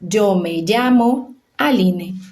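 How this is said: The ll sounds like the s in measure. This is how most countries of the Americas say it. "vão ler o Y e a doble L com som de J"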